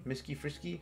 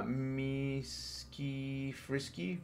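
First: Said in the usual way. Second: Very slow, softer MISKI FRISKY; sounding out slowly. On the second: Real, not acted. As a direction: MISKI stretched syllable by syllable.

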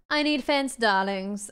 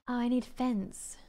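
First: Mock old Hollywood transatlantic accent. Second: Said in the usual way. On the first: Gamer hamming a transatlantic accent at viewers. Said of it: "This is a transatlantic accent, darlings". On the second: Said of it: "plain first take".

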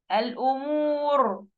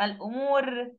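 First: الأمور drawn out slowly, ending on a thick, heavy R. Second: الأمور ending on a thin, light R; wrong light ra. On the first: Teacher correcting the mistake for students, heavy ra in الأمور. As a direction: stretch الأمور and round the final ر full and heavy. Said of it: "مفخمة". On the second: Teacher showing what not to say, light ra in الأمور. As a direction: finish الأمور with an unthickened ر. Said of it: "لا،". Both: Shown as a demonstration.

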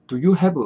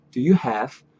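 First: "do you have" as Korean syllables, du-yu-hae-beu; Koreanized pronunciation. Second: "do you have" with a light, reduced do; "do you have" linked, no vowel after the v; natural English pronunciation. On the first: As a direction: say "do you have" with an added vowel after the v. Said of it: "이렇게 하지 마시고". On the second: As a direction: run "do you" into "have", ending on a bare v. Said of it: "요래 발음하지 마시고". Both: Shown as a demonstration.

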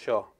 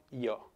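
First: "yo" with a sh sound, like "sho"; porteño sh sound. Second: "yo" with a soft i glide, like "io"; Mendoza i sound. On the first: Reading what Mendoza people don't say, "yo" as "sho". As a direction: say "yo" the Buenos Aires way, as "sho". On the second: Reading how Mendoza people talk, "yo" as "io". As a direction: say "yo" as "io", without any sh. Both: Shown as a demonstration. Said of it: "no hablamos con Y".

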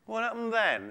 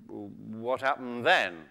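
First: Higher, hushed tiger question. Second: Low, slow, soft creature voice; interested tiger. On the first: Tiger forgetting his hunger, soft higher-pitched curiosity. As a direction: ask softly, pitched up. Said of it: "said the tiger". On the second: Tiger drawn into the muskrat's story, low slow curiosity. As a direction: draw it out softly, intrigued. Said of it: "said the tiger, who's getting quite interested". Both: Acted.

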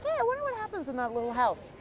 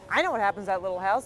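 First: High-pitched mock-curious passerby; imitating an innocent driver musing aloud; naive wondering. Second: Said in the usual way. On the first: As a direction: put on a high, idly wondering voice. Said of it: "And you're like".

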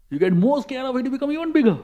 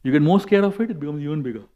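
First: High-pitched, building repeat; heightened warning that climbs in pitch; rising escalation. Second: Said in the usual way. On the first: Shown as a demonstration. Repeat builds to show fear growing.

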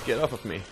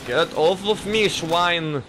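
First: Said in the usual way. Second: Higher, put-on German protest; badly faked German accent, pitched up. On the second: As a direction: do a cartoon German, indignant. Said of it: "I can't do a German accent".

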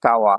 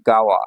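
First: কাওয়া with an initial k, ka-wa; base reading. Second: গাওয়া with an initial g, ga-wa; changed reading. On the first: Teacher names the river kanji, base reading কাওয়া with a k. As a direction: say কাওয়া starting on unvoiced K. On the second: Teacher corrects the reading within a name, গাওয়া with a g. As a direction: soften the k of kawa to G in গাওয়া. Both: Shown as a demonstration. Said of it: "এখানে উচ্চারণ হবে গাওয়া".

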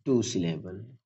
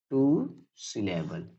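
First: Said in the usual way. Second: "टू syllable" stretched out, with a pause between words; slow emphatic repeat. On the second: Shown as a demonstration. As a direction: say "टू... syllable" slowly and softly for learners. Teacher repeats term slowly for learners. ("टू syllable" धीरे-धीरे, खींचकर)

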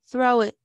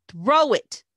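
First: Loud, firm order with level tune; commanding. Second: Loud bark, pitch leaping up and dropping; barked order. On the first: Bully ordering a girl to throw an egg, firm loud command. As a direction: give it as a direct command. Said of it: "commanded Red". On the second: Bully repeating his order after she refuses, sharp loud bark. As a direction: bark it, out of patience. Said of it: "Red barked". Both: A narrator's reading.

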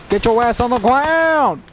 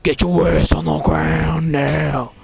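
First: Mock cop bark; tough cop voice. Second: Lower, slow cop growl; tough cop voice. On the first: Gamer barking at a game enemy in a cop voice. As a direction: play a gruff cop barking orders. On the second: Pretend. Gamer doing his cop voice at an enemy, low and slow. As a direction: drag it out low and menacing like a cop. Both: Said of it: "I don't know why I like to do that voice".

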